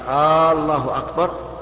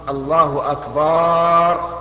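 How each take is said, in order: First: It is said as a question. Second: The vowel after the b is drawn out. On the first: It asks whether God is greatest. "لأن هذا استفهام وليس خبرا" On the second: It means God is drums. "مد الباء لا يصح"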